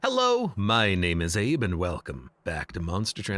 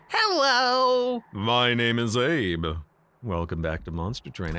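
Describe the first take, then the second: First: It is said in a normal pitch. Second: It is said in a very high pitch.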